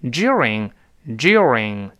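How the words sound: The d blends with y into a j sound. "我们按照英国的发音再读一下during，它有强烈的一个ye，所以跟的碰到ye 有音变，这是z during 这么来读"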